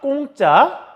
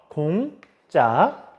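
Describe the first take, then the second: First: The first consonant is tense and hard. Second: The first consonant is plain and soft. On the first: The speaker calls it wrong. "근데 우리가 잘못 발음합니다" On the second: The speaker calls it right. "그럼 우리가 제대로 발음해야겠죠?"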